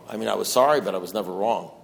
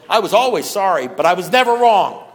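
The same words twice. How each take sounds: First: Said in the usual way. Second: "always" and "never" hit loud and higher; louder and higher, stressing "always" and "never"; emphatic restatement. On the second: Real, not acted. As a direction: drive the point home, punching "always" and "never".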